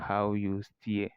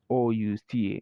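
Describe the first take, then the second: First: The h sound at the start is pronounced. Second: The h sound at the start is dropped. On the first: The speaker calls it wrong. "So it's not how you steer, no" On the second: The speaker calls it right. "we don't pronounce the sound of the H"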